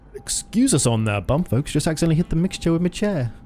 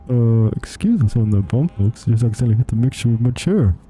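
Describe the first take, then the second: First: It is said in a plain, normal voice. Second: It is said in a put-on, muffled pilot voice.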